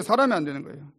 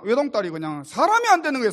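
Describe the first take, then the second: First: Said in the usual way. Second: 안 pushed higher and louder; lamenting a daughter gone wrong, 안 stressed. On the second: Acted. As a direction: lean hard into 안 in 안 되는. Repeated lament, first take.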